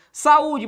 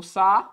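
First: Said in the usual way. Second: "saúde" broken into SA, U, DE with long pauses; syllable by syllable. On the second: Shown as a demonstration. Teacher shows what saúde contains, syllable by syllable. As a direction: spell out "saúde" one syllable at a time. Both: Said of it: "O que eu tenho em saúde?".

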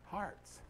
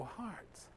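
First: Said in the usual way. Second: "Hearts." said much softer, as a quiet question rising at the end; puzzled echo. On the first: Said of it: "He goes". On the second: Retold or imitated. Pastor echoing the boy's odd answer in soft surprise. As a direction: echo "Hearts." back softly, wondering, pitch rising. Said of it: "I go".

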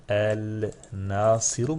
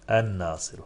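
First: "El Nasiru" slowly, with the lam clearly said as "el"; wrong reading demo. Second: "En Nasiru" with the lam dropped and the n doubled; correct reading. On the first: Teacher showing students the wrong reading, lam pronounced. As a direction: sound the lam: "El Nasiru", each syllable drawn out. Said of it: "Böyle mi okumalısın eliflen başa getirirsek". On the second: Teacher giving students the right tajweed reading, lam silent. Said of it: "Yanlış". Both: Shown as a demonstration.

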